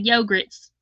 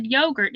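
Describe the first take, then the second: First: Put-on "yogurts" with an extra s on the end, said as a child would; child's mispronunciation. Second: Said in the usual way. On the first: A mother imitating her son saying "yogurts". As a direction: say "yogurts" the way the little boy did. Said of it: "he couldn't say yogurt". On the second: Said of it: "We'd say yogurt".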